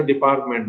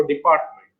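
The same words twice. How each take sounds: First: ডিপার্টমেন্ট said as "deparment", T dropped; ডিপার্টমেন্ট misread as "de-par-ment"; wrong pronunciation. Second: ডিপার্টমেন্ট with the T in "part" sounded; teacher's careful ডিপার্টমেন্ট, T before "ment"; correct pronunciation. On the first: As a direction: show the mistaken ডিপার্টমেন্ট without T in "part". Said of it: "এটা আসলে ডিপার্টমেন্ট নয়". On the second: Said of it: "শব্দটা উচ্চারণ করবে, তখন সেটা হবে". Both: Shown as a demonstration.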